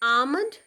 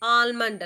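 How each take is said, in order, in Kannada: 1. l ಶಬ್ದವನ್ನು ಪೂರ್ತಿ ಬಿಡ್ತೀವಿ. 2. l ಶಬ್ದ m ಗಿಂತ ಮೊದಲು ಉಚ್ಚರಿಸ್ತೀವಿ. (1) "ಇಟ್ಸ್ ಆಮಂಡ್" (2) "ಎಲ್ ಪ್ರನೌನ್ಸ್ ಮಾಡಬಾರ್ದು, ಆಲ್ಮಂಡ್ ಅಲ್ಲ"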